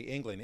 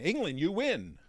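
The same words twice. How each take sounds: First: Said in the usual way. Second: Loud, high winner announcement; excited host. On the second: Retold or imitated. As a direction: call out England like a prize winner. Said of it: "I come over and I say".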